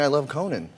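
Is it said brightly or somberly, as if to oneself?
brightly. It is said brightly and outwardly.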